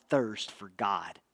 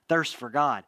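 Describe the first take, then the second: First: "Thirst for God" slowed right down, softer, lower; slow soft emphasis. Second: Said in the usual way. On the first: Shown as a demonstration. Preacher lets "Thirst for God" sink in, slow and soft. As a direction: lean into "Thirst for God" slowly and quietly.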